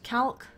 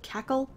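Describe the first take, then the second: First: The name is said as one short syllable. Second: The name is said as two syllables, cack-le. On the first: The speaker calls it wrong. "I don't know why I pronounce it that way" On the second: The speaker calls it right. "It should be like Cackle"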